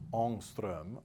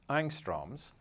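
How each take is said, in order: First: The word is said with a Swedish-style pronunciation. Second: The word is said with an English pronunciation. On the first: The speaker calls it right. "should be pronounced ångström or something like that" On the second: The speaker calls it wrong. "English speakers typically mispronounce as angstroms"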